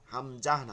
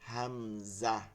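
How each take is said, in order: First: The word ends with an added breathy h. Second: The word ends lightly on a plain vowel. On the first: The speaker calls it wrong. "হামজাহ না" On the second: The speaker calls it right. "হালকাই বলতে হবে"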